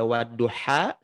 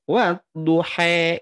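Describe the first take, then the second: First: The final vowel is a full open a. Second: The final vowel sounds like e. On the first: "wadduha sempurna a" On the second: "Imalah itu ya bunyi e"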